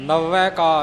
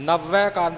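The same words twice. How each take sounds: Both takes have the same delivery.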